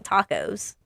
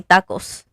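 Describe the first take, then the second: First: "tacos" as TAH-kohz, long vowels and z ending; accented pronunciation. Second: "tacos" with short front a, ending in s; proper pronunciation. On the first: Designer questioning their own accent, "tacos" said long as TAH-kohz. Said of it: "Why am I saying". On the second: Designer proving they know the word, "tacos" said properly with short vowels. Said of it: "I know how to say". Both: Shown as a demonstration.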